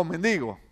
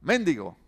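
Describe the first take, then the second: First: Mendigo stressed on DI; stress variant. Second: Mendigo stressed early, on MEN; stress variant. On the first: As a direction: say mendigo with the weight on the middle syllable, men-DI-go. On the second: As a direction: say Mendigo with the weight on the first syllable, MEN-di-go. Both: Shown as a demonstration. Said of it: "¿Cuál es la correcta?".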